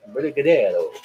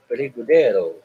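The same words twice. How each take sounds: First: "Brigadeiro" repeated as bri-ga-DEH-doh, flapped r's, stressed DE, falling finish; "Brigadeiro" said once more the same way, the r's close to d, stress on DE; own pronunciation. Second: "brigadeiro" said as bri-ga-DEH-doh, the r sounds rolled almost to a d, stress on DE, falling at the end; own pronunciation. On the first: Repeating it for chat, "Brigadeiro" as bri-ga-DEH-doh. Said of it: "that's how I say it". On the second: Reading out own recipe to chat, saying "brigadeiro" as bri-ga-DEH-doh. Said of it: "I don't know why I'm saying it like that".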